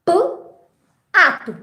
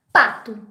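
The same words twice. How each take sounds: First: "P", long pause, then "ato"; segmented sounds. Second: Said in the usual way. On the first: Shown as a demonstration. Teacher quizzing on a sound game, "P" and "ato" separated. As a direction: sound out a bare "P", leave a gap, add "ato". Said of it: "Vamos fazer um jogo". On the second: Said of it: "que nome de um animal eu formo?".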